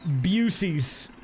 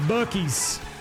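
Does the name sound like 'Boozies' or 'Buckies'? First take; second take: Boozies; Buckies. First: The name is said with a 'z' sound. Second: The name is said with a 'k' sound. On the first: The speaker calls it wrong. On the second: The speaker calls it right.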